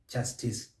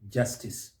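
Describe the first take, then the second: First: The stress is not on the first syllable. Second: The stress is on the first syllable. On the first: The speaker calls it wrong. "sometimes you may hear justice" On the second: The speaker calls it right. "Stress is on that first syllable"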